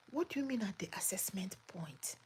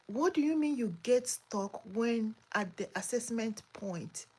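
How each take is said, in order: First: Breathy whisper of a puzzled question; whispered repeat. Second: Said in the usual way. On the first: Real, not acted. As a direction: whisper it back, baffled.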